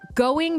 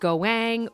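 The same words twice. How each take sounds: First: The vowel is pronounced in a plain, normal way. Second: The vowel is distorted and dragged out.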